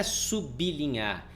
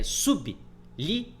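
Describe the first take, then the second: First: "sublinhar" run together as su-bli-nhar; "sublinhar" without a break after sub; wrong syllable split. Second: "sublinhar" slowly as sub... li... nhar; syllable-by-syllable "sublinhar", sub kept whole; correct syllable split. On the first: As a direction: say "sublinhar" with b joined to the li. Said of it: "Não é sublinhar". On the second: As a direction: pause in "sublinhar" after sub. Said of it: "é sublinhar". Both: Shown as a demonstration.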